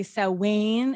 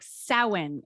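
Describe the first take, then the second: First: "Samhain" said "SOW-wen", stress first; imitating co-host's Samhain. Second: "Samhain" said "sow-EEN", stress on the second syllable; Google's Samhain. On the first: Mimicking how her co-host says the festival's name, stress first. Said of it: "See how you say Samhain?". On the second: Shown as a demonstration. Playing the online pronunciation to contrast with her co-host, stress on the second syllable. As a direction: say "Samhain" with the stress moved to the end. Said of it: "this is like Samhain".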